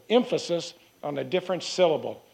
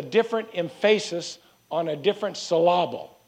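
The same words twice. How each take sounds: First: Said in the usual way. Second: "emphasis" as em-FAY-sis, "syllable" as sih-LAH-bul; wrong-syllable stress. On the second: Shown as a demonstration. Preacher quoting an old saying, "emphasis" and "syllable" stressed on their middle syllables. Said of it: "it is like the old statement".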